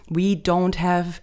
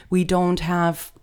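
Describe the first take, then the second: No difference in how they are said.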